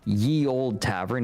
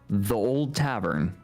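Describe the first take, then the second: First: The first word begins with a y sound. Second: The first word begins with a th sound. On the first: The speaker calls it wrong. "So it's not ye old tavern" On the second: The speaker calls it right. "it's just the old tavern"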